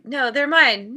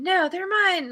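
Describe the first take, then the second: First: Loud mock squabble; mine, said like a kid grabbing a toy; childish possessive squabble. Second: Higher, whiny mock squabble; higher squabbling repeat. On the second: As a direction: push it up higher, sing-song and petulant. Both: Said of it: "And it's like".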